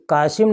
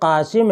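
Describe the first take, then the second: First: It begins with a plain k sound. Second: It begins with a deep throaty q sound. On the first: The speaker calls it wrong. "कासिम नहीं है" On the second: The speaker calls it right. "बल्कि कासिम है"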